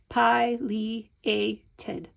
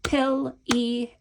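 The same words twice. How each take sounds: First: Pileated slowly split as "pie, lee, ay, tid"; syllable by syllable. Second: Pileated slowly split as "pill, ee, ay, tid"; the other way, syllabified. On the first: Teacher counting syllables in the word, syllable by syllable. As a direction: count out pileated beat by beat, long i first. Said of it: "four syllables if we say it that way". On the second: Teacher saying it the other way, syllable by syllable. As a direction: count out Pileated beat by beat, short i first. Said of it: "Let's say it the other way". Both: Shown as a demonstration.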